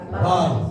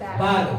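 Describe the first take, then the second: First: It is said heavily with rounded, pushed-out lips. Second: It is said plainly, lips not rounded. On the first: The speaker calls it right. "maka lisannya itu mencucu" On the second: The speaker calls it wrong. "Kalau anak-anak itu bacanya bar. Biasa"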